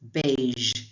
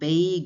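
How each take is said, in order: First: The word ends with a soft zh sound. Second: The word ends without a soft zh sound. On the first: The speaker calls it right. "Just that soft j sound again" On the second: The speaker calls it wrong. "it's not beige"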